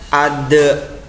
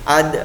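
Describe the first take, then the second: First: The d ends with a strong, full bounce. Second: The d ends with a small, light bounce. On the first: The speaker calls it wrong. "jangan dibaca ade ya" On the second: The speaker calls it right. "bacanya surah kecil atau tipis ya"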